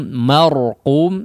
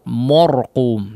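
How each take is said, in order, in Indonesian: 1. Vokal pertama adalah a yang terbuka dan jelas. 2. Vokal pertama dibulatkan, terdengar seperti o. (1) "Tapi ma ma marqum marqum ya" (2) "jangan mor ya"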